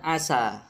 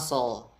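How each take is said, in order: First: The consonant is a plain, light 's'. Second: The consonant is a heavy, emphatic 's'. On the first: The speaker calls it right. "harusnya dibaca dengan sin" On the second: The speaker calls it wrong. "ia bacanya dengan sod"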